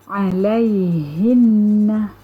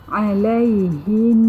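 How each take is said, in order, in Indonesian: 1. Kata itu berakhir pada vokal penuh setelah nun. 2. Kata itu berakhir pada sengau yang ditahan selama dua ketukan. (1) "Kalimahnya adalah alaihinna" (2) "didengungkan dengan kadar dua harakat"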